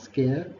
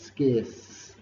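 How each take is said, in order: First: The word ends without a final S sound. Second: The word ends with a clear S sound. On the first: The speaker calls it wrong. "It's not scare" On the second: The speaker calls it right. "it's scarce ... pronounce the S sound at the end"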